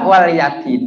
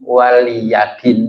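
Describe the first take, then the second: First: The word is split as wal-yadin. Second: The word is split as wa-liya-din. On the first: Go and seek a debt. The speaker calls it wrong. "kadang-kadang saya baca waliyadin, ... jauh dah" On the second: And to me is my religion. The speaker calls it right. "kan gitu"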